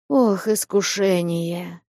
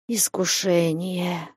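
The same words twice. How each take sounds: First: Slow, heavy sighing lament; a groaning, sighing cry; deep sigh. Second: Slow, soft sigh of a word; a hushed, sighing lament; sighing half-whisper. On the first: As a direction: sigh it out deeper, in despair. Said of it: "Глубже прежнего вздохнул". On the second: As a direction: breathe it out in quiet despair. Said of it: "с глубоким вздохом, полушёпотом". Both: A narrator's reading.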